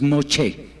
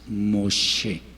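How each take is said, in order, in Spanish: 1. La consonante del medio es un sonido 'ch'. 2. La consonante del medio es un sonido 'sh'. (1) "no es"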